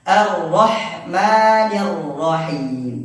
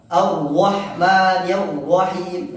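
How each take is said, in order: First: The r sounds are said with open lips. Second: The r sounds are said with rounded lips. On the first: The speaker calls it right. "akan dibuka" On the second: The speaker calls it wrong. "di huruf ro di sini monyong"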